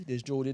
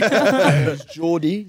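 First: Said in the usual way. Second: Slow, high, caught in a laugh. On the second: Real, not acted. Guest lists UK accents, laughing at the phlegm joke. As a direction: still giggling as you name it.

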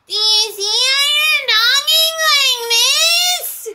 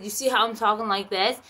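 First: Very high, loud, drawn-out wail; screechy mocking mimicry, stretched out slowly; mocking imitation. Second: Said in the usual way. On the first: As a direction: parody her obnoxious loud voice.

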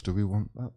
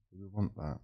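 First: Said in the usual way. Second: Much softer, half under the breath; muttered to himself. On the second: Real, not acted. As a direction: ask it again quietly, as if to yourself. Repeats question, then drops voice.

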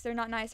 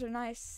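First: Not nice with a slight push on not; stress on not. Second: Said in the usual way. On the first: Real, not acted. Player correcting his slip about creepers, stress on not. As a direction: correct yourself by leaning on not. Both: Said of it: "is what I meant to say".

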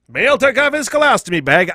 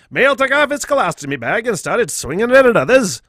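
First: Put-on old-timey radio announcer voice. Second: Put-on old-timey announcer, louder; old newsreel reading. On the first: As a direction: read it like an old newsreel. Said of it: "I don't know why it's a fucking old-timey voice". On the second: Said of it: "it's a fucking old-timey voice".

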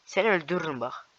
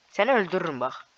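The two takes are said the same way.

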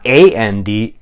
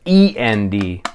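First: Spelling out A N D letter by letter; A N D spelled out letter by letter, as the wrong word. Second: Spelling out E N D letter by letter; E N D spelled out letter by letter, as the right word. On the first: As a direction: say each letter, A, N, D, slowly and separately. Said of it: "Not A N D". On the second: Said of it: "but E N D". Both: Shown as a demonstration.

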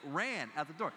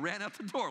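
First: "ran" stretched and leaned on; emphatic "ran", the rest trailing after it; stress on ran. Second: Said in the usual way. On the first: Real, not acted. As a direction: hit the word "ran" to show he truly fled. Repeats it to stress the running.

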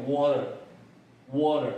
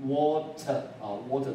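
First: American "water" with the T tapped like a D; American model of "water" for learners; American accent. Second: British "water" with a strong, clear T; British-leaning model of "water" for learners; British accent. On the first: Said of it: "美式呢会念". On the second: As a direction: say "water" British-style, T fully sounded. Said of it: "这个t呢是英国腔比较重". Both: Shown as a demonstration.

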